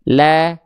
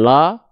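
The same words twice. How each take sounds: First: The vowel is thin, said with a slight smile. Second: The vowel is full and wide open. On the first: The speaker calls it right. "tapi la ... Tipiskan" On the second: The speaker calls it wrong. "Bukan la"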